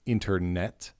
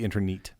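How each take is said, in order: First: The last syllable has a short e sound. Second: The last syllable has a long e sound. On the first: "I believe I'm pronouncing this correctly" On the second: "Could be long e"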